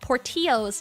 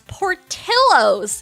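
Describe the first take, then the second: First: The double L is said like a Y. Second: The double L is said like an L. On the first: The name is treated as Mexican. The speaker calls it wrong. "it's not called Portillo's" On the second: The name is treated as Italian. The speaker calls it right. "it's Portillo's because he's Italian from Chicago"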